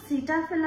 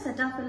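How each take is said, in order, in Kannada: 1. ಮೊದಲ ಸ್ವರ 'see' ತರ ಕೇಳುತ್ತೆ. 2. ಮೊದಲ ಸ್ವರ 'seh' ತರ ಕೇಳುತ್ತೆ. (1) "ಇದನ್ನ ಸಿಟಾಫಿಲ್ ಅಂತಾನೂ ಅಂತಾರೆ" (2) "ಸೆಟಾಫಿಲ್ ಅಂತಾನೂ ಅಂತಾರೆ"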